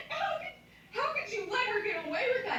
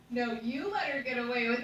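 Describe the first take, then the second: First: Very high, incredulous squawk with a laugh; hammed-up disbelief, pitched way up; mock outrage. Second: "you" punched in a mock retort; acted comeback with heavy emphasis on "you"; retort stressing YOU. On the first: Acted indignant reply in retold quarrel. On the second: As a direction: throw the blame back, leaning hard on "you". Acted retort turning the blame back.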